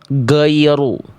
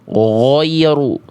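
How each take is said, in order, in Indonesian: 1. Bunyi pertamanya g keras yang terhenti. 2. Kata ini diucapkan dengan bibir monyong. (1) "suaranya tidak mengalir, jadi kayak huruf G" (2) "dibaca monyong"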